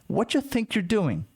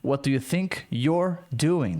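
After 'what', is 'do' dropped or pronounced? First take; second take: dropped; pronounced. First: 'Do' is dropped, giving 'what you'. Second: 'Do' is pronounced between 'what' and 'you'.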